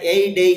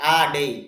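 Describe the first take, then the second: First: The article is said with a full 'ay' vowel. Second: The article is said with a short 'uh' vowel. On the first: The speaker calls it wrong. "এই ডেই হবে না" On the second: The speaker calls it right. "বাক্যের মাঝে যদি এ আসে তাহলে উচ্চারণটা হবে আ"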